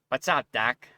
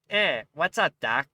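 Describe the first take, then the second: First: The voice is pitched lower. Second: The voice is pitched higher.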